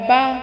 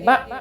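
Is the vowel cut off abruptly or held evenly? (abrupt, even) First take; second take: even; abrupt. First: The vowel is held evenly, neither clipped nor drawn out. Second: The vowel is cut off abruptly with a jolt. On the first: The speaker calls it right. "बहुत ज़्यादा ध्यान से पढ़ना है" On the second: The speaker calls it wrong. "झटका होने लगे, जैसे कि"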